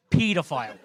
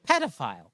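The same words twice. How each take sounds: First: Pedophile said as "PEE-duh-file"; long PEE pronunciation. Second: Pedophile said as "PED-uh-file"; short PED pronunciation. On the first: First of two pronunciations compared. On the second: Second of two pronunciations compared. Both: Shown as a demonstration.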